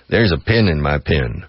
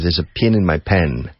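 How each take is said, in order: First: Pin and pen are pronounced with the same vowel. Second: Pin and pen are pronounced with different vowels. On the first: "it's exactly the same pronunciation in Texas" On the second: "whereas in Rhode Island or New York"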